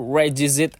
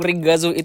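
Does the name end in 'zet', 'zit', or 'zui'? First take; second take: zit; zui. First: The name ends with a 'zit' sound. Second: The name ends with a 'zui' sound. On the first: The speaker calls it wrong. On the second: The speaker calls it right.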